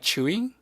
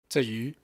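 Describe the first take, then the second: First: The name is said like English chewy. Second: The name is said with Mandarin sounds. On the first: "a lot of people pronounce it like Chewy, which I actually think is actually wrong" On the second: "that's the Taiwanese pronunciation of her name"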